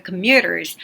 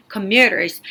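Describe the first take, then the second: First: Commuters with every consonant held clearly; crisp consonants. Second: Commuters said firmly, consonants held; crisp consonants. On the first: Teacher showing crisp consonants in commuters. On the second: Teacher modelling commuters for students to repeat. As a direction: land each consonant of commuters. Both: Shown as a demonstration. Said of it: "자음을 잡고 가야지".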